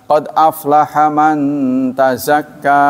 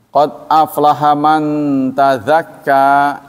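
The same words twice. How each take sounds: First: Tazakka is said with a plain z sound. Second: Tazakka is said with a th-like z sound. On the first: Happy is the one who purifies himself. The speaker calls it right. "sungguh bahagia orang yang mensucikan diri" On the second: Happy is the one who slaughters. The speaker calls it wrong. "gara-gara salah baca"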